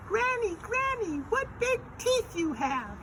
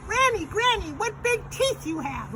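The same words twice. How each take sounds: First: Put-on very high squeaky child voice. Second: Put-on very high, loud falsetto child voice; louder Little Red. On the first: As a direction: demonstrate the line in a loud falsetto. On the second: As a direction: shout it in a squeaky little-girl voice. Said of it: "do it a little bit louder". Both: Shown as a demonstration.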